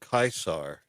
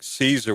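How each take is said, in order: First: The name begins with a hard K sound. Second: The name begins with a soft S sound. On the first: This is the classical Latin pronunciation. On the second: This is the familiar modern pronunciation.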